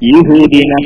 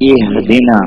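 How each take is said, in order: First: The word begins with a 'ya' sound. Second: The word begins with an 'ee' sound. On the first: The speaker calls it wrong. "ചിലപ്പോ ശ്രദ്ധിക്കാതെ ആ യഹ്ദീന എന്നൊക്കെ ആയി പോവാണ്" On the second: The speaker calls it right. "ഇഹ്ദിന ഈ എന്നാണ്, ഈ അല്ല യാ അല്ല"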